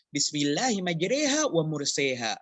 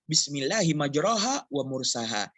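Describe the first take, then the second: First: Both key words have the 'e' vowel. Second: Neither key word has the 'e' vowel. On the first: This is how another reading tradition has it. "Jika semuanya imalah dalam qiraah lain" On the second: This is how the rule would normally have it. "Seharusnya dibaca"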